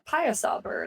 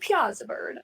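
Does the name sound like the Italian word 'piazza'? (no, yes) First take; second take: no; yes. First: The name does not sound like 'piazza'. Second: The name sounds like the Italian word 'piazza'. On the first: The speaker calls it right. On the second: The speaker calls it wrong.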